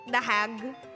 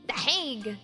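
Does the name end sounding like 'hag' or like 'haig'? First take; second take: hag; haig. First: The name ends with a short 'hag' sound. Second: The name ends with a long 'haig' sound. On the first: The speaker calls it wrong. "Is that how we pronounce it?" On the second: The speaker calls it right. "Politically incorrect pronunciation earlier"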